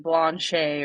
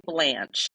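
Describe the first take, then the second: First: Frenchified Blanchet, ending in an AY sound; French-style guess. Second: Plain English Blanche with a short flat A; English pronunciation. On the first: Co-host unsure of a French name, French-style Blanchet. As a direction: say Blanchet as blon-SHAY. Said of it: "it's French, so it's probably, like". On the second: Co-host guessing at her subject's name, English pronunciation of Blanche. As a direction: say Blanche the English way, rhyming with ranch. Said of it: "so it's probably, like, Blanchet". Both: Shown as a demonstration.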